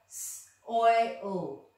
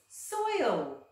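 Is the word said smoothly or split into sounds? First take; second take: split; smoothly. First: The word is split into separate sounds. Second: The word is said smoothly as one unit.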